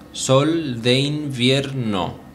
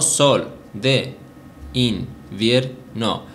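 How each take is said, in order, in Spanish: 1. 'De' e 'in' se unen en una sola sílaba. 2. 'De' e 'in' son dos sílabas separadas. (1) "se junta el de con el in de invierno" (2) "No sol, de, in, vier, no"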